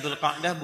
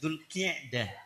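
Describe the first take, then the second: First: The vowel after the Q is 'a'. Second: The vowel after the Q is 'i'. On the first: The speaker calls it wrong. "Ini bukan Dzulqa'dah" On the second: The speaker calls it right. "Ki bukan ka tapi ki"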